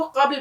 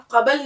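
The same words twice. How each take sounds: First: قبل as one syllable, qabl; correct closed reading. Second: قبل as two syllables, qa-bal; wrong open reading. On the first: Teacher reading it with jazm, قبل as qabl. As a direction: close the b straight onto the l in قبل. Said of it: "یہ سمجھیے جزم ہے". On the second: Teacher warning against opening the letter, قبل as qabal. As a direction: add a vowel after the b in قبل. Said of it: "اس حرف کو کھول کے نہیں پڑھتے". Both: Shown as a demonstration.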